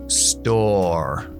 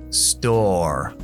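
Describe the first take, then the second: The two takes are said the same way.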